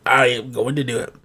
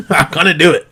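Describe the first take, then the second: First: Low, very soft, every word spelled out; quiet resolve. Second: Lower-pitched, chuckled resolve; amused. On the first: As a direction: drop to a hushed, deliberate vow. Repeats resolve low and deliberate. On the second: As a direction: say it through a little laugh. Amused resolve after own sound effect. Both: Real, not acted.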